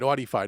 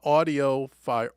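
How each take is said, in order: First: The name is said with three syllables. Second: The name is said with four syllables. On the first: The speaker calls it right. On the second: The speaker calls it wrong.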